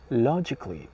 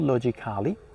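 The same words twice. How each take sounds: First: The ending is said as 'kli' without that vowel. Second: The ending is said with a full 'kali' vowel. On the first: The speaker calls it right. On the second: The speaker calls it wrong.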